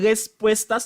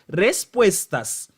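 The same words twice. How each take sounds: First: The first R is soft and weak. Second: The first R is strong and rolled. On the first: The speaker calls it wrong. "Ou pas dire respuestas" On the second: The speaker calls it right. "non, c'est respuestas"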